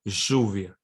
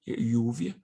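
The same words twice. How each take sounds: First: The ll is said unlike an English Y. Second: The ll is said like an English Y. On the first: "some people pronounce it like lluvia" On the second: "you can pronounce it lluvia, like a Y"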